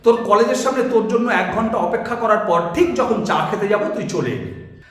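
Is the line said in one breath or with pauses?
one breath. The line is said in one breath.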